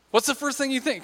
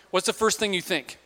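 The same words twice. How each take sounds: First: Asked again higher, pressing for an answer; coaxing repeat. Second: Said in the usual way. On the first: Shown as a demonstration. Preacher egging on the crowd, coaxing. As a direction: prod the congregation to answer. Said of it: "Come on".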